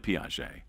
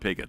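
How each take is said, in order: First: The name is said with its French pronunciation. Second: The name is said like English 'Piggott'. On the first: The speaker calls it right. "but it was really Piaget" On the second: The speaker calls it wrong. "our French pronunciation was not very good"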